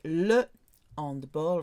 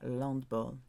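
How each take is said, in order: First: The article is said as a separate syllable. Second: The article is joined onto the noun. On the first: The speaker calls it right. "you're meant to say le handball" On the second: The speaker calls it wrong. "rather than l'handball"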